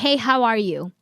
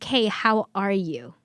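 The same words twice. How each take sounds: First: It is asked casually, as a routine greeting. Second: It is asked sincerely, with real interest.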